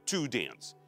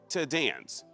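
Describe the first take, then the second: First: The lips are rounded on 'to'. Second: 'To' is reduced to a plain t sound. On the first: The speaker calls it wrong. "Мы не сворачиваем губы трубочкой. Мы не говорим слово to dance" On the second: The speaker calls it right. "Мы говорим просто звук t"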